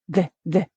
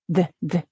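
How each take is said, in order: Both takes have the same delivery.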